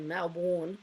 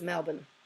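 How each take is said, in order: First: It is said with an American pronunciation. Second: It is said with an Australian pronunciation. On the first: The speaker calls it wrong. "as soon as they go Melbourne, we go, yep, American" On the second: The speaker calls it right. "it's Melbourne"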